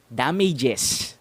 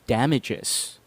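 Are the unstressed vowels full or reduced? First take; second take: full; reduced. First: The unstressed vowels are full and clear. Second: The unstressed vowels are reduced to schwa. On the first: The speaker calls it wrong. "how Filipinos would usually pronounce it" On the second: The speaker calls it right. "how I pronounce it"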